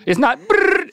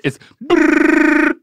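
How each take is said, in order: First: Said in the usual way. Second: Brrr in a low chesty rumble; lower brrr. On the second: Shown as a demonstration. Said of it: "do a lower one".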